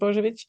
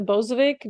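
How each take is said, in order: First: The surname is said with its original pronunciation. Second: The surname is said in a simplified, anglicized way. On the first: It is the official form of the name. "official pronunciation is Bojovic" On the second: It is made easier for listeners. "I typically pronounce it uh, Bozovic just to make it easier"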